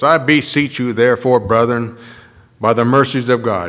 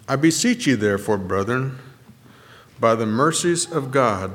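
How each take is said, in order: First: The words are read in a stern, grudging tone. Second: The words are read in a gentle, pleading tone. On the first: Acceptance is granted only grudgingly. The speaker calls it wrong. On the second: Service is asked for, not demanded. The speaker calls it right.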